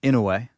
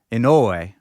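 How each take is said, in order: First: Said in the usual way. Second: "Inoue" with a full, loud O in the middle; stress on the O. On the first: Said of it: "I'm gonna start hitting these names". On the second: Shown as a demonstration. Host practising the fighter's name, stressed O. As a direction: say "Inoue" as in-OH-way, punching the OH. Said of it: "emphasis on the O".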